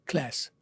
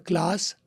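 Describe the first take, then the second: First: It has an American flat 'a' vowel. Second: It has a British broad 'ah' vowel.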